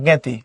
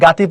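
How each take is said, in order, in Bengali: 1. প্রথম স্বরধ্বনিটি 'e'-এর মতো শোনায়। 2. প্রথম স্বরধ্বনিটি খোলা 'a' ধ্বনি। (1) "পড়বা জ্ঞাতি" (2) "এটাকে তুমি গাতি পড়বা না"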